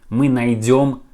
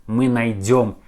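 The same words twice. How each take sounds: No difference in how they are said.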